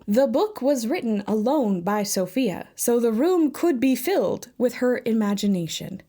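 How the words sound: It is said in a robotic voice.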